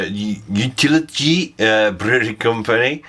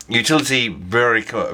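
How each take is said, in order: First: Utility with a Dutch lilt, rising at the end; Utility said like a Dutchman speaking English; mock Dutch accent. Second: Said in the usual way. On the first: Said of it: "went a bit Steve McLaren there". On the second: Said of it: "sorry, yeah".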